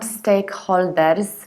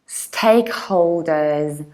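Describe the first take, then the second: First: The vowel in holders is unrounded. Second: The vowel in holders is rounded. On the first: The speaker calls it wrong. "These are not stakeholders" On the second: The speaker calls it right. "the most important thing is to round holders"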